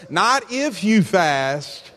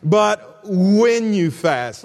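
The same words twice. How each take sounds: First: Slow, weighted "if"; contrastive stress on IF. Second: "when" drawn out very slowly; very slow, emphatic "when"; stress on WHEN. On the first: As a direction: set "if" up to be rejected. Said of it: "highlight that word when. Notice". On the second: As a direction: land long and firmly on "when". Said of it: "highlight that word when". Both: Real, not acted.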